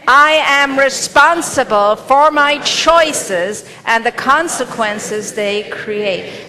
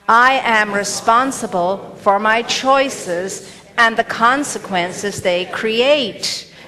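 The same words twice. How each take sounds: First: It is said forcefully, with strong conviction. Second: It is said in a plain, ordinary way. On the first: "and like you mean it" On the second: "Say it with me"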